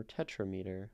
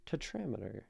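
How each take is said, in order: First: "tetrameter" as TET-ra-MEE-ter, stress on the first syllable; "tetrameter" with a long "meet" sound in the middle; alternative pronunciation. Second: "tetrameter" as te-TRAM-eter, stress on the second syllable; "tetrameter" with a short stressed TRAM; tetrameter pronunciation. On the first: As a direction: say "tetrameter" as tetra plus meter. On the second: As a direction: say "tetrameter" to rhyme its middle with "pentameter", te-TRAM-i-ter. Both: Shown as a demonstration. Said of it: "or tetrameter".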